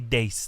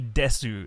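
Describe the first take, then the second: First: The final u vowel is dropped. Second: The final u vowel is fully pronounced. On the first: "They don't say des" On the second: "the original weebs would say desu"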